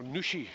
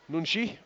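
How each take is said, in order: First: Nuchy said with no n before the ch; the fixed name, Nuchy, plain N U C H Y; corrected name. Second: Nunchy said with an N sound before the ch; first go at the surname, Nunchy with an n, then corrected; wrong name, louder. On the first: Commentator correcting himself to Nuchy, spelled as N U C H Y. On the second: Commentator trying the surname first as Nunchy, said louder. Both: Shown as a demonstration. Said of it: "or Nuchy, should I say, N U C H Y".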